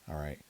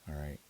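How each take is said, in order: No difference in how they are said.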